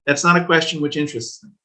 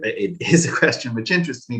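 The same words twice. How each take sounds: First: That's NOT a question, with "not" leaning hard; emphatic "not", set up for a correction; stress on not. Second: It IS a question, "is" stressed over a little laugh; a chuckling correction that hits "is". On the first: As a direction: push the word "not", then let it go. Corrects himself, contrasting not and is. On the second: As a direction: land on "is" as you laugh and take it back. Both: Real, not acted.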